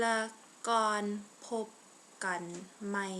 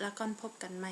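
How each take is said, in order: First: It is said slowly and carefully. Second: It is said at normal conversational speed.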